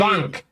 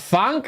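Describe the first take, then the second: First: The middle consonant is a V sound. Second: The middle consonant is an F sound. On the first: The speaker calls it right. "apparently it's more like a V" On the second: The speaker calls it wrong. "I'm going to pronounce this badly"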